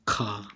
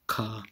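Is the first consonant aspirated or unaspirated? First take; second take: Aspirated; Aspirated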